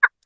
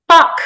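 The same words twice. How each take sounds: First: Tiny, clipped squeak of a curse; echoing toy. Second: Short, loud, raised swear; yelled curse. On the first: Toy answers from the hedges, echoing squeak. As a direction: squeak the swear back briefly. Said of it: "answered the hedges". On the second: Woman feeling her incision rip, yelled curse. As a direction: yell it out in pain. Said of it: "she yelled". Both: Acted.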